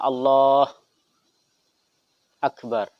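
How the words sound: A long pause separates the two words. "Atau lama"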